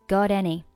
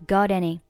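Both takes have the same delivery.

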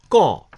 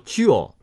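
First: It is said with the colloquial reading, like 'gao'. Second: It is said with the literary reading, like 'jiao'. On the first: This is the reading used in everyday speech. "交上来是口语，读交" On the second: This is the reading used in written, formal words. "交通是书面语，读交"

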